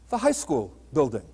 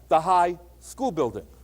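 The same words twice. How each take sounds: First: 'High school' is grouped together before 'building'. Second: 'High' is set apart from 'school building'. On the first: It is the building of a high school. "a one-story building with grades nine through twelve" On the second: It is a tall building used as a school. "It could be a very tall building"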